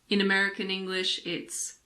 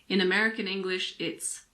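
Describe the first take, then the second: The two takes are said the same way.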